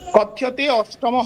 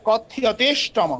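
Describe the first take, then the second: First: The two words are said separately. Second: The two words are merged into one word. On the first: The speaker calls it wrong. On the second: The speaker calls it right.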